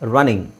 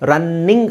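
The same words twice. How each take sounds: First: The middle n sound is single and short. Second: The middle n sound is doubled and held long. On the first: The speaker calls it right. "ಒತ್ತಿ ಹೇಳೋ ಅವಶ್ಯಕತೆ ಇಲ್ಲ" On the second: The speaker calls it wrong. "ಎರಡು ಎನ್ ಇದೆ, ರನ್ನಿಂಗ್ ಅಲ್ಲ"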